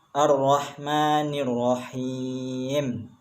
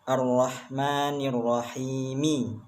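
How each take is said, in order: First: The last word ends on a bare consonant. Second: The last word ends with a short vowel. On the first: The reader stops at this point. "bila diwakafkan maka bacaannya dibaca sukun" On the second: This is the full form without stopping. "Tulisan ayat yang aslinya"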